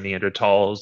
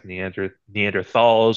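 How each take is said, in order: First: The word is pronounced the German way. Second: The word is pronounced the usual English way.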